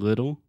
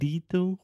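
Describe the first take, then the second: First: The first vowel is a short i sound. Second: The first vowel is not a short i sound. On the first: The speaker calls it right. "So we have the I sound" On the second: The speaker calls it wrong. "we're not saying little"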